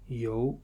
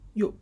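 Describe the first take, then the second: First: The tone rises from middle to high. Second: The tone falls sharply from high.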